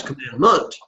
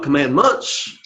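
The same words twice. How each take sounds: First: "commandment" ending on a t, no s; "commandment" said as a singular, ending picked out; singular ending stressed. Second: "commandments" with the final s sounded; "commandments" said as a plural, ending picked out; plural ending stressed. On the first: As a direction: lean on the ending of "commandment", stopping at the t. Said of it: "it's commandment". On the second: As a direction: lean on the ending of "commandments", closing in -ts. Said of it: "So it's not commandments". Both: Shown as a demonstration.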